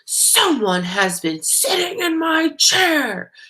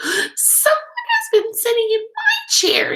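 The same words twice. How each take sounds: First: It is a loud, growly voice. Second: It is a high, squeaky voice.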